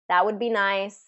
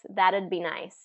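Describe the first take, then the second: First: Both words are said fully and separately. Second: It is shortened to one syllable with a D sound. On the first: "that would" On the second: "So that T becomes a D"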